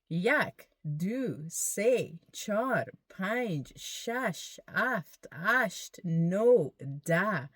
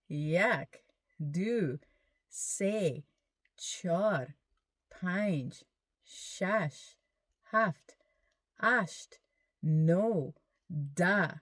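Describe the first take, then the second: First: The numbers are counted at a faster pace. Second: The numbers are counted at a slower pace. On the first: "let's do it a little faster" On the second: "Say it with me"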